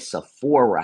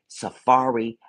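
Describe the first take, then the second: First: The name is said like 'seh-FOR-uh'. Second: The name is said like 'suh-FAR-ee'. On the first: The speaker calls it right. "s- she said Sephora" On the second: The speaker calls it wrong. "it ain't Safari"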